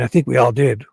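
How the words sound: It is read in a gruff voice. The speaker calls it wrong.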